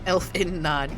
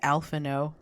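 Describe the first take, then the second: First: The name ends in a nod sound. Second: The name ends in an open oh sound. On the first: The speaker calls it wrong. "that's how I've been pronouncing it" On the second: The speaker calls it right. "It's Alphino"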